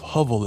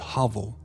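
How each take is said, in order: First: The first vowel is a long O sound. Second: The first vowel is a short ah sound. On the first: The speaker calls it wrong. "a long O is just O" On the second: The speaker calls it right. "Short O is like ah"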